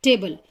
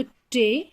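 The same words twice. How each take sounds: First: Said in the usual way. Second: टे held alone as the first piece of table; split-off syllable. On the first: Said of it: "मैं आपको बोलूं table". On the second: Shown as a demonstration. Teacher dividing table into two parts, टे set apart. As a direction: say टे by itself, then stop before the rest. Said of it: "दो parts divide करती हूं".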